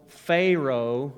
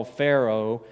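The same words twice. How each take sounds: First: Pharaoh said as FAY-roh; regional pronunciation. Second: Said in the usual way. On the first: Shown as a demonstration. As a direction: say Pharaoh with a long "ay" first syllable. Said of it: "where I'm from, it's Pharaoh". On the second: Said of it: "depending on where you're from".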